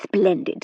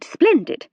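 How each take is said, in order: First: Said in the usual way. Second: Splendid leapt up high and brighter; delighted. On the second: A narrator's reading. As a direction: lift the second splendid in delight. Second splendid lifts sharply.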